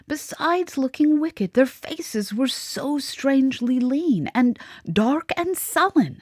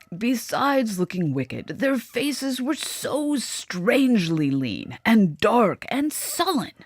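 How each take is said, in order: First: It is read in the mademoiselle's voice. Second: It is read in the father's voice.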